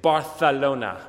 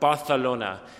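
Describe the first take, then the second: First: The c is said with a th sound. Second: The same.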